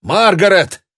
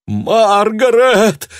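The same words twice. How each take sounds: First: High, loud call. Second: High, loud, slow pained cry. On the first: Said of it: "позвал". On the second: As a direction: cry out her name in pain. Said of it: "больше боли, чем торжества". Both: A narrator's reading.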